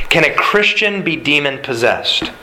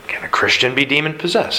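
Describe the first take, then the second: First: Christian leaned on, falling at the end; stress on Christian. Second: Be stressed, the question rising at the end. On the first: Pastor posing the congregation's question, stress on Christian. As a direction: hit the word Christian and let the question drop. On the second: Pastor repeating the question, stress on be. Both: Shown as a demonstration.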